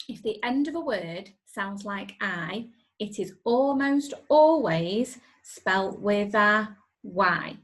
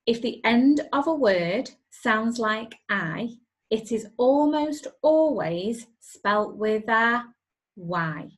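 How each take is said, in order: First: Spelling rhyme with ALWAYS stressed; rhyme recited. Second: Spelling rhyme recited louder, ALWAYS stressed; louder rhyme recital. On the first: Teacher teaching the spelling rhyme, stressing always. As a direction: recite the rule, leaning on always. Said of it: "it goes like this". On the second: Teacher repeating the rhyme louder for pupils. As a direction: chant the rule out clearly for the class. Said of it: "Let's listen to that one more time". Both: Shown as a demonstration.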